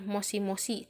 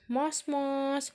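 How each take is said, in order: First: Each part ends with a clear i vowel. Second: Each part ends without the i vowel. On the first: "ada tulisannya moshi-moshi" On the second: "tapi dibacanya mos-mos"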